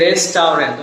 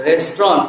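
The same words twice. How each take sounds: First: "রেস্টুরেন্ট" as res-tau-rent; three syllables in "রেস্টুরেন্ট", with "au"; common mispronunciation. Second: "রেস্টুরেন্ট" as two syllables, res-tront; correct pronunciation. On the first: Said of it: "কিন্তু আসল শব্দটা হচ্ছে কি". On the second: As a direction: drop the middle vowels of "রেস্টুরেন্ট". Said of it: "উচ্চারণটা হচ্ছে কি". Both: Shown as a demonstration.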